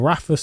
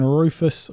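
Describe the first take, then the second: First: "Rafus" with an open a, RAH-fus; corrected name Rafus. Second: "Rufus" with an oo vowel, ROO-fus; name said as Rufus. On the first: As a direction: correct it to "Rafus", stressing the first syllable. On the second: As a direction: say "Rufus" like roof. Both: Real, not acted. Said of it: "how am I butchering these names".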